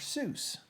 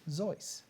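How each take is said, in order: First: The name rhymes with goose. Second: The name rhymes with voice. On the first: This is the common anglicized form. The speaker calls it wrong. "Everyone calls Doctor Seuss Doctor Seuss" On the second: This is the bearer's own German form. The speaker calls it right. "it's German, so it's Zois"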